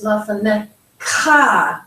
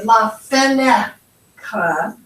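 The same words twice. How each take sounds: First: La feneCHA, weight on the final syllable; slow la feneCHA, Hebrew-style emphasis; last-syllable stress. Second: La feNEcha, punched in the middle; slow la FENEcha, English-style emphasis; middle-syllable stress. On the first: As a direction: hold and stress the CHA ending la fenecha. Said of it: "we put more emphasis on the last syllable". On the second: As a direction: stretch and stress the middle of la fenecha, drop the cha. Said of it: "put emphasis on the middle syllable". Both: Shown as a demonstration.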